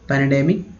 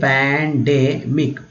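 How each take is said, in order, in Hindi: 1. एक अतिरिक्त स्वर pan को demic से अलग करता है। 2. Pan सीधे demic में बिना किसी स्वर के जुड़ जाता है। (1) "पैनाडेमिक पढ़ने में दिक्कत हुआ" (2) "तो ये हो गया पैंडेमिक"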